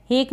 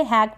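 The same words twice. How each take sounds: First: हेक with a long "ay" vowel; mispronunciation demo. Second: हैक with an open "ae" vowel; correct vowel demo. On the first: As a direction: say हेक to rhyme with "lake". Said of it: "हेक नहीं पढ़ेंगे". (हेक में ए की मात्रा) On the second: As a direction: say हैक to rhyme with "back". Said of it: "हैक पढ़ेंगे इसको". (हैक में ऐ की मात्रा) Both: Shown as a demonstration.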